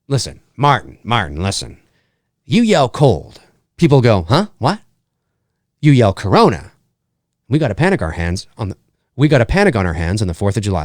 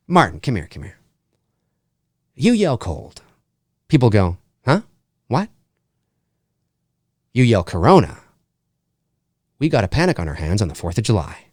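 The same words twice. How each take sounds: First: Lightly voiced small-town mayor, low and quick at the end; a hint of the worried mayor from Jaws hushing a panic; mayor brushing off the shark scare, lightly voiced; Jaws mayor impression. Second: Low, hushed mayor voice, quick on the last line; second try at the Jaws mayor, lower and hushed; Jaws mayor cadence. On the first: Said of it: "in the mayor's voice from Jaws". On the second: Retold or imitated. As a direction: copy the mayor's cadence, not his voice. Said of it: "it's not his voice, but it's his cadence".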